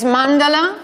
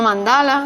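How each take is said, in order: First: "Mandala" as MAN-da-la; stress on first syllable. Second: "Mandala" as man-DA-la; mistaken middle stress. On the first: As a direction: hit MAN in "Mandala", short vowels after it. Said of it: "el acento en la tercera sílaba". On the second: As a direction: say "Mandala" with the accent wrongly on DA. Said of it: "no Mandala". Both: Shown as a demonstration.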